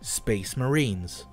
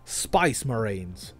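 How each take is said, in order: First: It is said without an Australian accent. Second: It is said with an Australian accent. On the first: "Clearly not an Australian accent" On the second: "you say Spice Marines"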